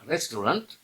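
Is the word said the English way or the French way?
English. It is said with an ordinary English pronunciation. The speaker calls it wrong. "not restaurant, that most people do"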